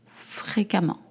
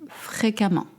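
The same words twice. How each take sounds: Both takes have the same delivery.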